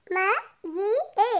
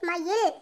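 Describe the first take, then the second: First: மயிலே sounded out very slowly in separate pieces; letter by letter. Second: Said in the usual way. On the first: Shown as a demonstration. Pupil reads aloud for the teacher, மயிலே letter by letter. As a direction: break மயிலே up, a pause after each letter. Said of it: "ஒவ்வொரு எழுத்தா உச்சரித்து வாசிங்க". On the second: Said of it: "உச்சரித்து வாசிங்க".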